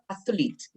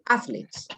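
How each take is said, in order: First: The stress is on the second syllable. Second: The stress is on the first syllable. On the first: The speaker calls it wrong. "It's not athletes" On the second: The speaker calls it right. "the stress is on the first A"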